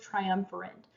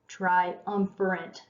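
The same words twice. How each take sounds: First: Said in the usual way. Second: "Triumvirate" drawn out slowly, syllable by syllable; slow, careful second go at "Triumvirate"; careful repeat. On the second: Real, not acted. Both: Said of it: "having a hard time talking".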